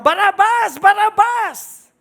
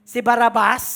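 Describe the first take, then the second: First: Louder, higher retold mob shout; crowd shouting. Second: Said in the usual way. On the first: Crowd choosing Barabas over Jesus, shouting loud. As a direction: shout the name back like the crowd. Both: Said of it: "Sila yung simigaw na".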